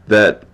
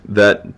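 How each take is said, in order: No difference in how they are said.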